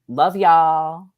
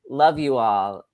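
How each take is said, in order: First: You and all merge into one syllable. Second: The words you and all are said separately. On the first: The speaker calls it right. "the proper way to say it is love y'all" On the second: The speaker calls it wrong. "I actually said love you all"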